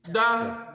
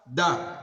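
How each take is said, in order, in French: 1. La syllabe est prononcée sur un ton moyen. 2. La syllabe est prononcée sur un ton bas. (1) "Nous avons le ton moyen" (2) "Nous avons le ton bas"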